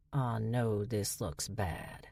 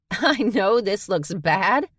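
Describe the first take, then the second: First: Low, soft and slow, sheepish; hushed, slow understatement; sheepish admission. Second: High, loud, slow mocking echo; laughing incredulous repeat. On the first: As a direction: own up quietly like a caught kid. Dutch admits trouble sheepishly. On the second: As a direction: throw the words back in disbelief. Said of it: "Charlie laughed". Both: A narrator's reading.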